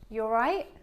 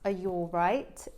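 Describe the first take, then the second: First: The words are run together into one. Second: Each word is said separately and fully. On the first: "They would connect it to say" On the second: "Except it wouldn't sound like this"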